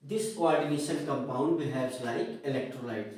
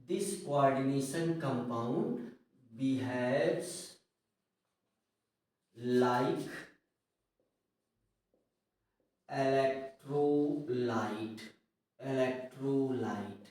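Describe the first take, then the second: First: Said in the usual way. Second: Very slow word by word, long pauses; low, drawn-out dictation in separate chunks. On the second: Real, not acted. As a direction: dictate for students writing it down. Teacher dictating a sentence for notes.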